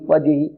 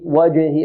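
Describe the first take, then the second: First: The jeem has a faint, weak echo. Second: The jeem has a clear, strong echo. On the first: The speaker calls it wrong. "البعض يقول وجه وجه وجه، يأتي بقلقلة ضعيفة" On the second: The speaker calls it right. "لابد من بيان قلقلتها"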